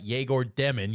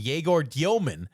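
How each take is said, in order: First: The surname sounds like the word demon. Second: The surname sounds like dee-oh-man. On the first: This is how the name was said in college. The speaker calls it wrong. "No, not Yegor Demon" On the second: This is the player's official pronunciation. The speaker calls it right. "That's his official pronunciation of his last name"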